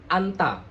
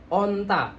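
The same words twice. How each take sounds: First: ANTA with an open A in place of O; mouth too open. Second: ONTA with lips pushed out on the O; rounded O. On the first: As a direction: open the first vowel wide into ANTA. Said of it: "kalau mulutnya dibuka jadi anta". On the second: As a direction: round the first vowel of ONTA clearly. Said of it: "Kalau O tapi agak monyong dikit". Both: Shown as a demonstration.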